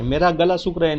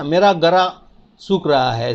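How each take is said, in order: First: गला with a clear ल; standard l. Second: गला said as गरा, ल turned to र; Bhojpuri r for l. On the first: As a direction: keep the ल in गला. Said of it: "नहीं बोलेंगे". (गला में साफ़ ल) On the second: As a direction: swap the ल in गला for a tapped र. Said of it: "ऐसा बोलेंगे". (गला को गरा बोलें, ल की जगह र) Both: Shown as a demonstration.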